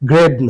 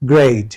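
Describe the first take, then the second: First: The vowel is a plain single 'e' sound. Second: The vowel glides from 'e' into 'i'. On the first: The speaker calls it wrong. "না" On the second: The speaker calls it right. "একটা হ্রস্বই এসে মাঝখানে বসবে"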